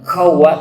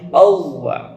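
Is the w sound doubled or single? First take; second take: single; doubled. First: The w sound is short and single. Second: The w sound is doubled and pressed. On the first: The speaker calls it wrong. "bukan qawwa" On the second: The speaker calls it right. "tapi qawwa ... kalau double berarti harus ditekan"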